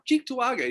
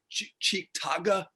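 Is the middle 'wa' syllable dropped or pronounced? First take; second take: pronounced; dropped. First: All syllables are pronounced, including the middle 'wa'. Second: The middle 'wa' syllable is dropped. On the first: "where are you from? Oh" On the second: "He's like"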